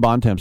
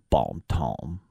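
First: The name is said with English pronunciation. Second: The name is said with French pronunciation. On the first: The speaker calls it right. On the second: The speaker calls it wrong.

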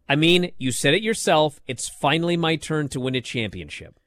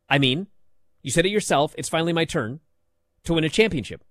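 First: The line flows smoothly without stops between phrases. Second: The line is choppy, with full stops between phrases. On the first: The speaker calls it right. "here is the line, okay, as it should be read" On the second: The speaker calls it wrong. "she said it like this. ... What are these periods doing in there?"

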